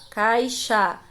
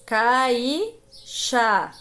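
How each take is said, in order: First: Said in the usual way. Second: Caixa drawn out as cai... xa; split into syllables. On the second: Shown as a demonstration. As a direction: break Caixa in two with a pause after cai. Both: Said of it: "Aqui está separada as sílabas".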